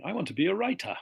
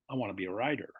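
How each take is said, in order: First: High, loud British demo with crisp T's; British accent. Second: American accent, T softened to D in "rider". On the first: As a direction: exaggerate British T's in a raised voice. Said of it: "If you can hear lots of T's". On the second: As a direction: do American, letting the T's slacken. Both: Shown as a demonstration.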